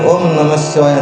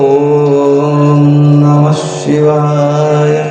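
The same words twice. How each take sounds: First: The opening syllable is said quickly and short. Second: The opening syllable is held long and drawn out. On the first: The speaker calls it wrong. "ಅಂತೀರ, ಹಂಗಲ್ಲ" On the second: The speaker calls it right. "ಈ ರೀತಿ ಬರಬೇಕು"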